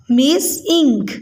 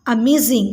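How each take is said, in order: First: "amazing" in three slow, separated beats: a, maz, ing; syllable by syllable. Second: Said in the usual way. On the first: Shown as a demonstration. Teacher counts three syllables for pupils, "amazing" split apart. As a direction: sound out "amazing" piece by piece. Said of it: "ये three syllable word है". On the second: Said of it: "ये amazing के syllables हैं".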